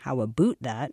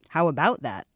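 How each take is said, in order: First: It is said in a marked, unusual accent. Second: It is said in a plain, ordinary accent. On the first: "the voice didn't say" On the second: "like regular"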